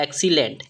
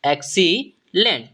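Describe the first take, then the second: First: Said in the usual way. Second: excellent split with a pause before the last syllable; slowly broken up. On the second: Shown as a demonstration. Teacher showing students how to read the word, slowly broken up. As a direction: stretch the word out in two parts.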